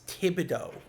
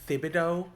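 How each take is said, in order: First: The name begins with a plain 't' sound. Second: The name begins with a 'th' sound. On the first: The speaker calls it right. "I think it's a silent H" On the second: The speaker calls it wrong. "I don't think it's Thibodeau"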